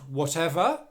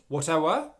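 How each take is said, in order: First: The middle consonant is a V sound. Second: The middle consonant is a W sound. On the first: The speaker calls it right. "making sure that you're pronouncing that as a V sound" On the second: The speaker calls it wrong. "it's a V and not a W sound"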